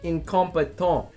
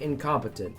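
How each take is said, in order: First: It is said with a French accent. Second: It is said with a plain English accent.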